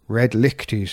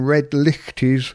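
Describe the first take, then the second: First: The second word has a throaty ch, like loch. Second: The second word has no throaty sound, like light. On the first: The speaker calls it right. "It's lick, as in lock" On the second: The speaker calls it wrong. "I've been saying red lichties incorrectly"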